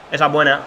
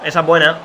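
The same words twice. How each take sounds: The two takes are said the same way.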